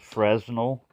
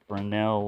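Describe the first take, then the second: First: It is pronounced just as it is spelled. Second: It is pronounced the French way. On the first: The speaker calls it wrong. "I pronounce it as the way it's spelled" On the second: The speaker calls it right. "but no, it's, it's a Fresnel lens"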